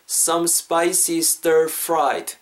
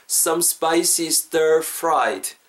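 Both takes have the same delivery.

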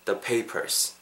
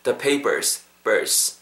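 First: The papers with both Ps puffed; aspirated second P. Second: The papers with second P like ㅃ; tense second P. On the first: Teacher shows the differing version of the papers, second P aspirated. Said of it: "It's totally different from". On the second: Teacher contrasts The papers for learners, second P tense. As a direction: say The papers, then isolate the tight final syllable. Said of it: "뒤에 P 사운드는 약간은 쌍비읍". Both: Shown as a demonstration.

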